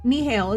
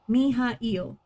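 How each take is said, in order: First: The name is said in two syllables. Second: The name is said in three syllables. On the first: The speaker calls it wrong. "is how it reads to me" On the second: The speaker calls it right. "Every vowel is a new syllable"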